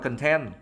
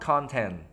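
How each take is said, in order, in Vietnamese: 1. Trọng âm rơi vào âm tiết thứ hai. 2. Trọng âm rơi vào âm tiết thứ nhất. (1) "đấy là tính từ thì nó đọc là content" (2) "cái âm nhấn ở đây là âm một nếu như nó là danh từ"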